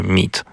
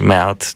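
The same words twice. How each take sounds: First: "meat" with one long ee, as "meet"; correct pronunciation. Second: "meat" read as two Polish vowels, "meh-at"; spelling pronunciation. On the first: Co-host showing how it is read, standard pronunciation. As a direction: say "meat" as "MEET", a single syllable. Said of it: "czyta się". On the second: Co-host showing how it is written, spelled-out sounds. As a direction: say "meat" letter by letter, "ME-AT". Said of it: "czyta się meat". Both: Shown as a demonstration.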